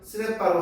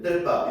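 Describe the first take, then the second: First: The word starts with an s sound. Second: The word starts with a tense tt sound. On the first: "어떤 사람은 스레빠로 하는데" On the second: "어떤 사람은 떼빠 이렇게 발음할 수 있잖아"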